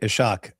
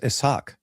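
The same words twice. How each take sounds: First: The s and h merge into one sh sound. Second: The s and h are said as separate sounds. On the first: The speaker calls it wrong. "I used to say Ishaq" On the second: The speaker calls it right. "Nabil would go, it's Ishaq"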